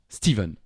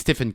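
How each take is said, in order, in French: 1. La consonne du milieu se prononce « v ». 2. La consonne du milieu ne se prononce pas « v ». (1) "les Américains prononcent Stephen, Steven aussi, comme s'il y avait un V" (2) "nous on dit Stephen King"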